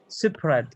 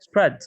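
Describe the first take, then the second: First: An extra vowel separates the s and p. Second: The s runs straight into the p. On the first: The speaker calls it wrong. "It is not spread. ... add a, a sound between the S and the P" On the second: The speaker calls it right. "the right pronunciation is spread"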